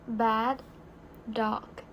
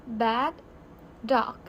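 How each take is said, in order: No difference in how they are said.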